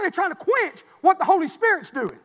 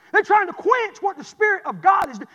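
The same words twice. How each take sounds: First: Fervent preaching. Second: Louder shouted repeat of the point; preacher crying the line out again; preaching shout. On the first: First statement of the point. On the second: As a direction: drive it home with a shout. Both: Acted.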